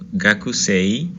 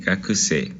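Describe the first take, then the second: First: "gakusei" slowly, ending in a clear e-i glide; pronounced final I. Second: "gakuse" ending in a long e, with no i sound; long final E. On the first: Teacher spelling out the word for students, "gakusei" with its final i sounded. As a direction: sound out the written i at the end of "gakusei". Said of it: "termina con una I". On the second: Teacher giving the correct spoken form, "gakuse" with a doubled final e. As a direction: draw out the last e of "gakuse" instead of sounding an i. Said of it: "no vamos a pronunciar esa I". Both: Shown as a demonstration.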